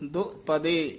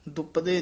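First: The word is split with a break after do. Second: The word is said joined, with no break. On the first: The speaker calls it right. "ਦੋ ਤੇ ਪਦੇ ਦੇ ਵਿੱਚ dash ਦੇ ਕੇ ਉਚਾਰਨ ਕਰਨਾ" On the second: The speaker calls it wrong. "ਦੁਪਦੇ ਨਹੀਂ ਕਹਿਣਾ"

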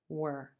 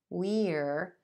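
First: The word has a short, reduced vowel. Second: The word has a full, clear vowel. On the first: "this word's going to reduce to were" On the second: "We are can become we're"

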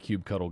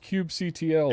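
First: The ending is said like the word cuddle. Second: The ending is spelled out as letters C-T-L. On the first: The speaker calls it right. "You like to cuddle your cubes" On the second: The speaker calls it wrong. "The people that get all up in arms about it"

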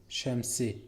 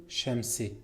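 Both takes have the same delivery.

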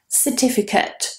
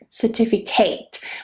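First: The final syllable has a weak, reduced vowel. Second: The final syllable has a full, clear vowel. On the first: The speaker calls it right. "So that ending is very weak. It's with a schwa" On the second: The speaker calls it wrong. "Notice that I'm not saying certificate. Certificate, which is what a lot of students do"

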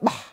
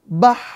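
First: The final h sound is cut off short. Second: The final h sound flows on with breath. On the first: The speaker calls it wrong. "Kan bukan bah, bukan" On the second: The speaker calls it right. "Suaranya mengalir sempurna"

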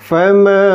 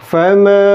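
The two takes are said the same way.

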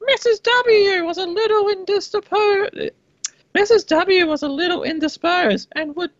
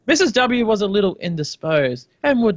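First: It is read in a put-on character voice. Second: It is read in a normal speaking voice. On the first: "I don't even know if I'm being a man or a woman" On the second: "I'm just gonna do normal voice now"

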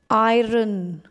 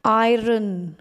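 First: The R is pronounced clearly, like 'eye-ron'. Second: The same.

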